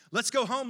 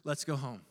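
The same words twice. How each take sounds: First: Louder, firm invitation; rally them to come along; emphatic reassurance. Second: Low, tender invitation; calmly gather them up; gentle reassurance. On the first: Good Shepherd leading the sheep home, emphatic. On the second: Good Shepherd picking up the sheep, gently. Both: Retold or imitated. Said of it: "He just picks you up and says".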